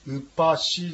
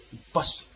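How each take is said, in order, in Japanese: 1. この単語はsの後に母音で終わる。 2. この単語は子音のsだけで終わる。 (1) "ウッパシじゃなくて" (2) "子音なんですね、S だけの発音です。"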